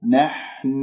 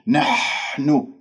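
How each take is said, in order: First: The H sound is soft and light. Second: The H sound is pushed out with harsh, heavy air. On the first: The speaker calls it right. "فانتبهوا الحاء رقيقة" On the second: The speaker calls it wrong. "بهجم على المخرج هجوم وبعطيه كمية هواء كبيرة فتطلع عندي نحن خطأ"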